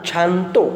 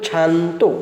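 The two takes are said the same way.

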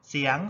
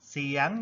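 The two takes are said the same way.

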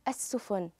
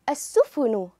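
First: The word stops on a bare n. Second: A short vowel follows the final n.

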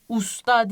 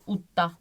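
First: The middle consonant is an s sound. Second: The middle consonant is a doubled t sound. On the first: The speaker calls it wrong. "Usta diye okunmuyor. Usta der gibi Türkçe" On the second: The speaker calls it right. "Utta diye okunuyor arkadaşlar"

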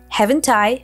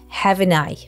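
First: The T sound in haven't is pronounced. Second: The T sound in haven't is dropped.

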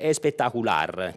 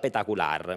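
First: The word is said in full with every sound. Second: The word is clipped, dropping its opening sounds. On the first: "Il suo aggettivo preferito è espectacular" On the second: "lui pronuncia petacular, mangiandosi tre lettere"

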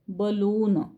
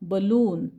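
First: The first vowel is a short 'uh' sound. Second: The same.

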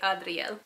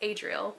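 First: The name is said with Spanish pronunciation. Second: The name is said with English pronunciation. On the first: "usually in Spanish you'd say Adriel" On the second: "It can either be pronounced Adriel"

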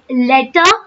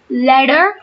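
First: The middle t is a sharp, clear t sound. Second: The middle t is a soft, d-like sound. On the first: This is the British way. "the Britishers use it as letter" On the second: This is the American way. "the Americans use it as letter"

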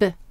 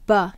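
First: The consonant is clipped with no vowel after. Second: The consonant is followed by an added vowel. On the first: The speaker calls it right. "So it's just B" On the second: The speaker calls it wrong. "your students will write B-U if you say B"

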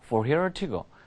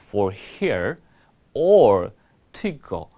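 First: The phrase is spoken at a very fast pace. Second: The phrase is spoken at a slow pace. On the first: "더 빨리 얘기해볼게요" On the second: "천천히 얘기할게요"

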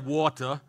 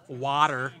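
First: It is said with a British accent. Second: It is said with an American accent. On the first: The speaker calls it right. "I didn't say water" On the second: The speaker calls it wrong. "I said water. / obviously I didn't pronounce it correctly"

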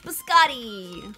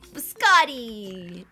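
First: It is said in a New York accent. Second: It is said in an attempted Italian accent.

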